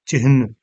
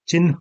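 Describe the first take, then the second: First: The h sound comes before the n sound. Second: The n sound comes before the h sound. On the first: The speaker calls it wrong. "ना कि चिह्न" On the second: The speaker calls it right. "आधा न पहले आएगा"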